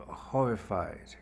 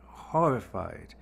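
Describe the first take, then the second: No difference in how they are said.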